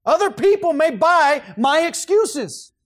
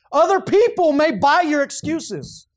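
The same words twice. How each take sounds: First: High, loud, slow preaching cadence, "my" landing hard; full-force preaching. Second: High, loud, slow preaching cadence; full-force preaching. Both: Real, not acted. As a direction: preach it out to the room.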